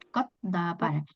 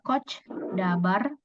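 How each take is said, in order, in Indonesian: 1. Kata pertama berakhir dengan bunyi t. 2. Kata pertama berakhir dengan bunyi ch. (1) "tapi kot dabar" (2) "Jadi bukan coach dabar"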